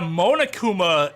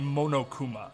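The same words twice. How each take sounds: First: The second syllable sounds like 'na', anglicized. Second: Each syllable has a clear Japanese 'o' vowel. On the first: The speaker calls it wrong. "a weird way to say it" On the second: The speaker calls it right. "how it would be pronounced in Japanese"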